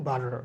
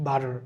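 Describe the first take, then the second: The two takes are said the same way.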